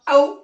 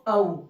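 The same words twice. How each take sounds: First: It is said harshly, like scolding someone. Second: It is said softly and gently.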